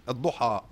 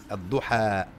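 First: Ad-Duha with a heavy, dark final a; common mistaken pronunciation. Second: Ad-Duha with a thin, fronted final a; corrected light alif. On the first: Teacher imitates what is commonly heard, heavy alif. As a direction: back the last vowel of Ad-Duha. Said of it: "You commonly hear this spoken". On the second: Teacher corrects the common reading, light alif. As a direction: keep the end of Ad-Duha light and long. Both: Shown as a demonstration.

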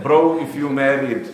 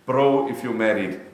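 First: Louder, slow, calling out to the married brothers; loud teasing call. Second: Said in the usual way. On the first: Real, not acted. Preacher teasing the married men in the crowd, loud and slow. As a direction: lean on bro and tease them loudly. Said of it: "loud teasing repeat". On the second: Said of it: "repeat, calmer".

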